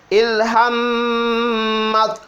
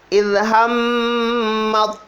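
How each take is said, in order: The two takes are said the same way.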